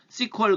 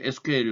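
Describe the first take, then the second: First: It is said as one two-syllable word, sequel. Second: It is spelled out as three separate letters. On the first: "어떤 사람들은 이렇게 씨퀄이라고 발음하기도 합니다" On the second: "에스큐엘이라고 읽기도 합니다"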